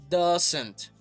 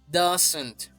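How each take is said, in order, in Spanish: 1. Se dice como una sola palabra contraída. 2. Se dice como una sola palabra contraída.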